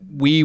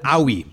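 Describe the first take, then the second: First: It is said as one syllable, wee. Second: It is said as two syllables, oh-ee. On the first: The word is understood as the French word for yes. The speaker calls it right. "we didn't know that we was a friend" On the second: The word was read from its spelling without knowing it. The speaker calls it wrong. "We called it Owie"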